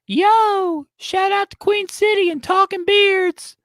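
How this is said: It is said in a high helium voice.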